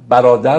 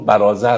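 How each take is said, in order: First: The middle consonant is a d sound. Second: The middle consonant is a z-like sound. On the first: This is how the word is said today. "برادر رو برازر تلفظ میکنن" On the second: This is how the word was said in old times. "برادر رو برازر تلفظ میکنن"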